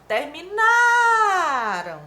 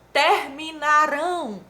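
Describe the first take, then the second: First: "Terminaram" with NA hugely stretched, high and loud; exaggerated penultimate stress. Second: "Terminarão" slow and loud, weight on final RÃO; stress on last syllable. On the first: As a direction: hold the NA of "Terminaram" very long, then fall. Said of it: "a sílaba tônica é a penúltima". ("Terminaram" esticando bem o NA, alto e forte) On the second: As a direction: stretch out "Terminarão" onto a strong RÃO. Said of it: "a sílaba tônica é a última". ("Terminarão" devagar, com o RÃO final tônico) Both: Shown as a demonstration.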